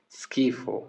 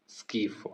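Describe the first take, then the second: First: Said in the usual way. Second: Whispered repeat. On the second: Shown as a demonstration. Teacher repeating the word for disgust, whispered. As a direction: whisper the word schifo as skifo, softly and unvoiced. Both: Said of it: "ये हो गया disgust".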